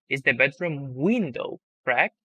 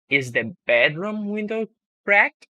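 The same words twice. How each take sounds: First: The word window carries the strongest stress. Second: The word bedroom carries the strongest stress. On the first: The question is about which object in the room. "I'm changing my tone and stress when saying it" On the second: The question is about which room's window. "I'm changing my tone and stress when saying it"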